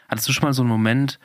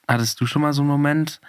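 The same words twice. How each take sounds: The two takes are said the same way.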